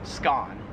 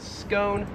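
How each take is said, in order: First: It is said the Australian way. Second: It is said the American way. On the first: "in Australian English it is pronounced scone" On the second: "we pronounce that in American English as scone"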